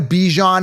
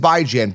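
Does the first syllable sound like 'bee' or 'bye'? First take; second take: bee; bye. First: The first syllable sounds like 'bee'. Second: The first syllable sounds like 'bye'. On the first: "a B E E G H O" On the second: "Bi as in bi-weekly"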